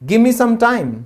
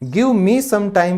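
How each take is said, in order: First: 'Give me' is blended into one word, 'gimme'. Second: Both words of 'give me' are said separately. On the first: "वो कहेंगे" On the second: "की जगह"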